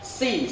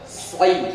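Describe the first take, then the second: First: The s is light, like a plain s. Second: The back of the tongue rises, making a heavy s. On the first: The speaker calls it wrong. "yang kedua si, salah" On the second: The speaker calls it right. "Yang ketiga adalah soi. Ya ini yang betul ya"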